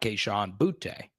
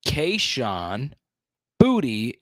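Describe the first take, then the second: First: The surname is said as one syllable. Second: The surname is said as two syllables. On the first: This is the common but mistaken pronunciation. The speaker calls it wrong. "is how we have been pronouncing it for a long time" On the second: This is how the player says his own name. The speaker calls it right. "The truth is Kayshawn Booty is how you pronounce it"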